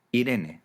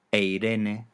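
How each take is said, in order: First: Said in the usual way. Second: "e Irene" run together, opening on the diphthong ei; Greek ei diphthong. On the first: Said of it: "monoptongan en latín y en castellano". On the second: Shown as a demonstration. Teacher citing the Greek name, "e Irene" with initial ei. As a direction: say "e Irene" as one word, ei-RE-ne. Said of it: "Los diptongos en".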